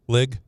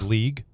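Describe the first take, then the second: First: The word has a short 'i' vowel. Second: The word has a long 'ee' vowel. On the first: The speaker calls it wrong. "He says lig" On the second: The speaker calls it right. "do you hear how he pronounces league?"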